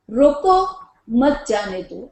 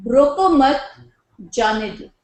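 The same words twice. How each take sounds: First: पause nach "रोको", dann "मत जाने दो" angehängt; pause after roko. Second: Group "रोको मत" together, break before "जाने दो"; pause after roko mat. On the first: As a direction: stop on "रोको", then run "मत जाने दो" together. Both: Shown as a demonstration. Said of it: "The meaning differs".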